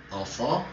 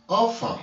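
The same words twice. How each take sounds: First: "Enfant" calmly repeated; repeated French "enfant". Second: "enfant" said the French way, /ɑ̃fɑ̃/, pitched up. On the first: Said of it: "Terminé par S". ("Enfant" répété doucement) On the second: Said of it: "en français, on dit". ("enfant" à la française) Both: Shown as a demonstration.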